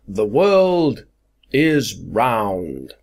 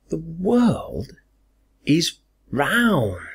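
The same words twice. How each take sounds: First: It sounds proud and self-satisfied. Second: It sounds surprised and disbelieving. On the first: The speaker is pleased with themselves. "oh, I'm so proud of myself" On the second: The speaker cannot believe someone said this. "There's surprise"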